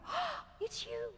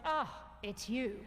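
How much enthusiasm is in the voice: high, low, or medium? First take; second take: high; low. First: It sounds very excited and lively. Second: It sounds flat with little excitement. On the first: The relationship is new and thrilling. "You open the door on Friday night" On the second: The pair have grown too familiar. "eventually you get to the point"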